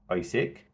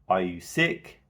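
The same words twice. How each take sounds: First: The pitch falls at the end. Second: The pitch rises at the end. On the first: The asker already assumes the answer is yes. "if we were to use a falling tone" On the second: It is a real yes-or-no question. "Rising at the end"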